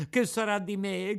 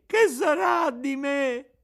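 First: High, crying question; tearful lament. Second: Much higher, louder, slow bawling; howling wail. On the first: Pinocchio alone on the beach, crying in despair. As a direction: wail it out in despair. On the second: Pinocchio wails his fear at the top of his voice. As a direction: let the cry break into a howl. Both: A narrator's reading. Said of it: "continuava a piangere, a berciare".

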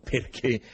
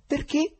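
First: Said in the usual way. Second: High rising pitch; startled question. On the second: A narrator's reading. Listener challenges the foreigner's flat denial, startled question. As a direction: ask it in astonishment.

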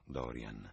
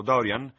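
First: Low, cold and quiet; icy voice. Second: Bright, loud and rising; hearty. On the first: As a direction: drop the name coldly. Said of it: "con voce gelida". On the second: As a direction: offer it warmly and brightly. Host offering tea heartily. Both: Acted.

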